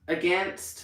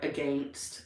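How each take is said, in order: First: It is said in the speaker's American accent. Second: It is said in a Canadian accent. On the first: "Against for me" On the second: "like against sometimes in Canada"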